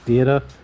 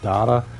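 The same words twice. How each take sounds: First: The first vowel sounds like in 'date'. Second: The first vowel sounds like in 'dat'. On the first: This is how the listeners say it. "You guys, I think, pronounce it as Data" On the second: This is how the speaker says it. "I pronounce it as Data"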